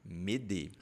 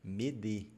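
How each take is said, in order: Both takes have the same delivery.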